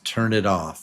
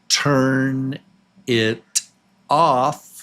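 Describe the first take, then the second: First: The words run together as one. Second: Each word is said separately.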